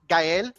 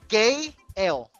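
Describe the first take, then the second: First: The name is said as one smooth word. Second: The name is split into 'gay' plus 'L'. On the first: It is simply the boy's name. The speaker calls it right. "everybody knows that my son's name is Gael" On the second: The speaker calls it wrong.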